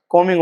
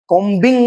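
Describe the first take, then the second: First: "कॉमिंग" with no B, just M and -ing; corrected "कॉमिंग", the B silent. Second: "कॉम्बिंग" with a hard B before -ing; B wrongly sounded. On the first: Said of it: "कॉमिंग होगा". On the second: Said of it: "कॉम्बिंग नहीं होगा". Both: Shown as a demonstration.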